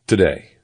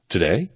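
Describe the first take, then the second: First: "Today." louder with falling end; firm answer. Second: "Today?" with rising question tune. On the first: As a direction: state "Today." with finality. Narrator firmly answers the query. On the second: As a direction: ask "Today?", lifting the end. Caller queries the requested deadline. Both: A narrator's reading.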